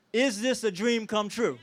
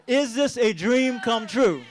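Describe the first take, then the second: First: Rallying question. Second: Slower, louder rallying shout; louder crowd call. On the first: Speaker rallies the crowd with a question, shouting. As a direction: call it out to the crowd. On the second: Speaker asks the crowd again, louder and slower. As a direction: make the whole room answer. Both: Real, not acted. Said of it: "One more time".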